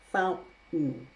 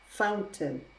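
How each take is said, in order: First: The T is replaced by a glottal stop. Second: The T is fully released as a sound. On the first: "Now I'm going to use a glottal stop for each of them" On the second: "That is using the true T, the T sound"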